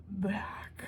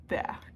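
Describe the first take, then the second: First: Dramatic whisper. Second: Said in the usual way. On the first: Shown as a demonstration. Telling viewers the bag came back, whispered.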